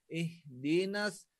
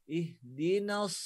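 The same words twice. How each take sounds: No difference in how they are said.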